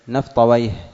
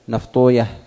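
First: The ending is pronounced as -awayh. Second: The ending is pronounced as -uyah. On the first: This is the form used by language scholars. "فأما أهل اللغة فيجعلونه من المركب المزجي" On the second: This is the form used by hadith scholars. "وأما المحدثون فيضمون ما قبل الواو"

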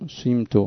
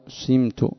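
First: The first vowel is an i with rounded lips. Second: The first vowel is an i with rounded lips.

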